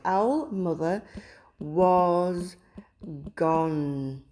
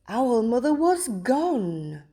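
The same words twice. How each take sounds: First: It is said in a plain, flat voice. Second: It is said in a surprised voice.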